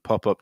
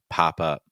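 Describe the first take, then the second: First: The vowels are short and said quickly. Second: The vowels are lengthened and stretched out. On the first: The speaker calls it wrong. "It's not pop up, that's a little too fast" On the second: The speaker calls it right. "we want to try to extend your vowels"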